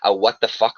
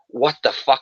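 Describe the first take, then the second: First: It sounds scornful and fed up. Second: It sounds shocked and delighted.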